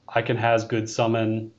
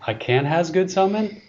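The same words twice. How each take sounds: First: It is read flatly with little pitch movement. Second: It is read with lively, varied pitch movement. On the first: The speaker calls it wrong. "You didn't put enough inflection in there" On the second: The speaker calls it right. "There you go"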